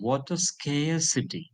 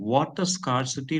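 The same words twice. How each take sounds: First: The first syllable of scarcity sounds like 'scare'. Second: The first syllable of scarcity sounds like 'scar'. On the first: The speaker calls it right. "Scar becomes scare" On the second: The speaker calls it wrong.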